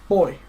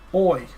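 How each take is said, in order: First: It is said quickly, at normal speed. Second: It is said slowly, drawn out.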